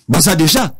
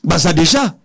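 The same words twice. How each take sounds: The two takes are said the same way.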